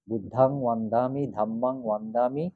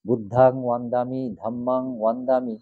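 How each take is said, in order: First: বুদ্ধাং ওয়ান্দামি with long a vowels and w sound; ধাম্মাং ওয়ান্দামি said with open a; correct Pali pronunciation. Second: বুদ্ধাং ওয়ান্দামি with long a vowels and w sound; correct Pali pronunciation. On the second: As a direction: say ধাম্মাং ওয়ান্দামি with open a vowels. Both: Shown as a demonstration. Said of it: "বন্দামি না হয়ে এটা ওয়ান্দামি হবে".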